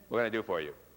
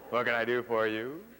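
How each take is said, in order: First: The pitch drops off quickly at the end. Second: The pitch goes down and then back up. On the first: "an abrupt pitch drop, that means they drop their voice off quickly" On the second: "the one that goes down and then up"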